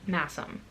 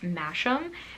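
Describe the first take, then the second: First: The middle consonant is a plain 's' sound. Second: The middle consonant is a 'sh' sound. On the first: The speaker calls it right. "I believe it's pronounced Massam" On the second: The speaker calls it wrong. "I pronounced it Masham"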